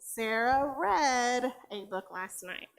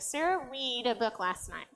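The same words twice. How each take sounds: First: The word read rhymes with bed. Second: The word read rhymes with seed.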